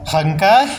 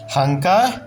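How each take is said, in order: Both takes have the same delivery.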